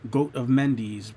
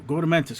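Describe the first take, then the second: First: The words are said separately at normal speed. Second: The words are said fast, blurred into one word. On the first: The speaker calls it right. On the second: The speaker calls it wrong.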